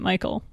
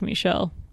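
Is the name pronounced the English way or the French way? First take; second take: English; French. First: The name is pronounced the English way. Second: The name is pronounced the French way. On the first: "if you say the name wrong, it doesn't sound French" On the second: "when you say it like Michel"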